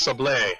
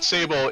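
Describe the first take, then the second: First: The final e is sounded. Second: The final e is silent. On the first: The speaker calls it right. "it's Sablé, which is a cookie" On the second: The speaker calls it wrong. "it's not Sable"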